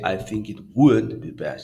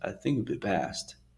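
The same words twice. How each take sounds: First: The word 'would' is stressed too much. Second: The word 'would' gets no special stress.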